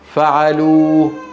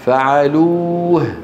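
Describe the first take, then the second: First: The word ends on the vowel without final h. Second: The word ends with a clearly heard final h. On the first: The speaker calls it wrong. "آخر شيء أنا سمعته الواو" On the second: The speaker calls it right. "عليه أن يقول فعلوه"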